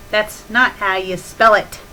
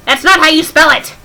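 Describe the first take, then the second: First: Said in the usual way. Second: "That's not how you spell it." louder and higher with "not" punched; loud fed-up correction with "not" hit hard; exasperated retort. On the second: Real, not acted. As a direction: snap it back, fed up. Exasperated repeat of the joke.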